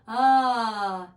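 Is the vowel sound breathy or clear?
clear. The vowel is clear and fully voiced. The speaker calls it right. "is not breathy. It's connected"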